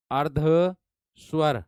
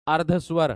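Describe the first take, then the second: First: अर्धस्वर drawn out very slowly, syllable by syllable; slowly spelled out. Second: Said in the usual way. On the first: Shown as a demonstration. Teacher to students, spelling out अर्धस्वर very slowly. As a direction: stretch अर्धस्वर slowly so students catch each sound. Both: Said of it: "teacher repeats the term".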